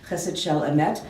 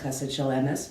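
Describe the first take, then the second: First: The last word ends with a t sound. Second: The last word ends with an s sound.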